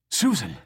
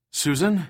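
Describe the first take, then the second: First: Sharper, firmer; a sharp, urgent call; more sharply. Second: Raised, higher call into the dark; calling out a name, searching. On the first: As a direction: say her name with an edge to it. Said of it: "he said more sharply". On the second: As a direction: call her name across the cell block. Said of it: "he called". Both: A narrator's reading.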